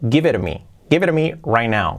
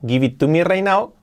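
First: The word 'to' is dropped in connected speech. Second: Every word is said in full, including 'to'. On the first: "la pronunciación que sería correcta sería así" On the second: "Escrita así"

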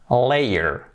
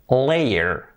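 The two takes are said the same way.

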